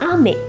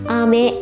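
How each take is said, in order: First: The pitch changes across the word. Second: The pitch stays flat across the word. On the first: It means rain. "yang pertama ame itu hujan" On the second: It means candy. "ame yang datar"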